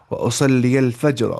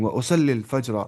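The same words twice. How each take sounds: First: واصلی الفجر said slowly and a bit louder, each word spaced; slow model reading. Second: Said in the usual way. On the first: Shown as a demonstration. Teacher modelling واصلی الفجر slowly for students. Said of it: "ایسے بولنا ہے". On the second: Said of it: "ایسے بولیں گے ہم یہاں پہ".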